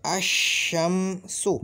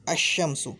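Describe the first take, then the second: First: अशम्सु drawn out very slowly with a doubled sh; teacher spelling out अशम्सु slowly; slow pronunciation demo. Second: Said in the usual way. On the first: Shown as a demonstration. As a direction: stretch अशम्सु syllable by syllable. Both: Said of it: "इसका तलफ़ुज़ ये है".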